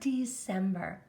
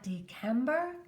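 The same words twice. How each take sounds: First: The C is said with an S sound. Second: The C is said with a K sound. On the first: The speaker calls it right. "This is the word December" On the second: The speaker calls it wrong. "It's not December"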